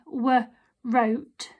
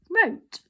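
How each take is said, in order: First: A w sound is pronounced before the r. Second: The word starts straight with the r sound. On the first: The speaker calls it wrong. "we don't say I w wrote" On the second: The speaker calls it right. "we say it to say wrote"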